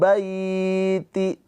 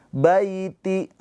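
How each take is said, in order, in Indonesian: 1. Vokal dalam bai dibaca panjang. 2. Vokal dalam bai tetap dibaca pendek.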